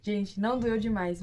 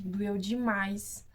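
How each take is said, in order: First: Não firmly stressed, then the rest matter-of-fact; correcting herself. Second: Stretches doeu demais out slowly, overdoing the pain; slow, melodramatic doeu demais, as if it hurt terribly; drawn-out exaggeration. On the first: Correcting her exaggeration to viewers, stressed não. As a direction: stress on não, doeu demais said plainly. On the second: Telling viewers the pain, exaggerated slow drawl. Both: Shown as a demonstration. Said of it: "ó, exagero".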